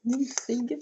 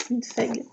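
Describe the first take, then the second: First: "Minfeg" tried as "mi-fig", questioning rise; unsure pronunciation. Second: Said in the usual way. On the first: Shown as a demonstration. Vlogger unsure of the brand name, tentative "Minfeg" with a rising tune. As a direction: sound out "Minfeg" hesitantly as mi-fig, pitch rising at the end. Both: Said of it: "Comment ça se prononce?".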